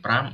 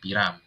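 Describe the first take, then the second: First: It is said as one syllable, pram. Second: It is said as two syllables, piram. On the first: "bisa dibaca sebagai pram" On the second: "bisa dibaca sebagai piram"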